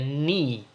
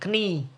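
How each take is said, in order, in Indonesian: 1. Kata ini diawali dengan bunyi N, tidak ada K. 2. Kata ini diawali dengan bunyi K yang jelas. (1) "tetapi dibacanya knee. K-nya dihilangkan" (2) "dibacanya jangan knee"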